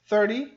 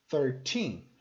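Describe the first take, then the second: First: Thirty loud on the first syllable; stress on THIR. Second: Put-on thirteen with a long final TEEN; stress on TEEN. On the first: Teacher comparing two numbers, thirty stressed at the start. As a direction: hit THIR in thirty, short ending. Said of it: "a diferença na pronúncia desses números". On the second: Teacher comparing two numbers, thirteen stressed on TEEN. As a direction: lean on the end of thirteen. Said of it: "o foco fica no final". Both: Shown as a demonstration.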